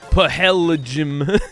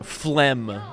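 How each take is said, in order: First: Every letter is sounded across several syllables. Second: It is said as one short syllable. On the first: The speaker calls it wrong. "is not pahelgym" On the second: The speaker calls it right. "doesn't sound like the way it's spelled"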